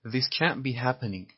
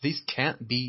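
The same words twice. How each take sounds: First: Can't punched, whole line slow; stress on can't. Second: Said in the usual way. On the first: Shown as a demonstration. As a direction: lean hard on can't to show the negation.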